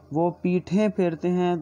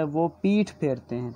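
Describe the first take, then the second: First: Teacher stressing the plural پیٹھیں. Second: Said in the usual way. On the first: Shown as a demonstration. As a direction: lean on پیٹھیں to set it against پیٹھ. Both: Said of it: "ترجمہ نہیں کیا گیا".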